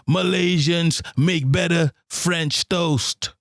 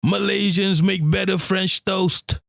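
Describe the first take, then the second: First: "Malaysians make better French toast" spoken slowly, each word weighted; slow down and land every word of "Malaysians make better French toast"; slow emphatic. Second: Said in the usual way. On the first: Shown as a demonstration. Repeating the claim to viewers, slow and emphatic. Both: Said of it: "I'm telling you right now".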